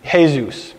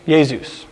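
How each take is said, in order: First: "Jesus" said as HAY-zoos; Greek form. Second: "Jesus" said as YAY-zoos; Greek form. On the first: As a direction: pronounce "Jesus" Greek-style, starting with an h sound. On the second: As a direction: pronounce "Jesus" Greek-style, starting with a y sound. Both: Shown as a demonstration. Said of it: "it went from Joshua to".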